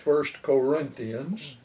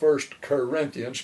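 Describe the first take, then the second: First: The first syllable of Corinthians sounds like 'kor'. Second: The first syllable of Corinthians sounds like 'ker'. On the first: The speaker calls it right. "it's First Corinthians" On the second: The speaker calls it wrong. "It's not First Corinthians, K E R"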